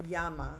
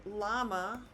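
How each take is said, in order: First: "llama" as YAH-ma, double L said as Y; Spanish "llama" with a Y sound; Spanish pronunciation. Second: "llama" as LAH-ma, with an L; anglicised "llama" with a plain L sound; English pronunciation. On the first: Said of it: "in Spanish, it's, it's pronounced llama". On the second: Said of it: "how we pronounce it in English". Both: Shown as a demonstration.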